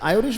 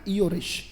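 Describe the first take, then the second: First: The word begins with an 'eye' sound. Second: The word begins with an 'ee' sound. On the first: "वो American sound है" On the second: "but British इसका क्या है बेटा?"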